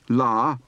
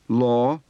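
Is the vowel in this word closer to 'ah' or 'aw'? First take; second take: ah; aw. First: The vowel is an open ah sound. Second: The vowel is a rounded aw sound.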